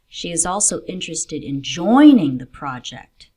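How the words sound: The stress falls on the word joining. She wants to take part, not just learn. "not just in learning about the project, but in joining and contributing to it"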